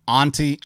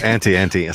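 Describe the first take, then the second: First: The first vowel is open, as in 'father'. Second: The first vowel is flat, as in 'ant'. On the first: The speaker calls it right. "call it Anti ... like your aunt" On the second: The speaker calls it wrong. "instead of Anti"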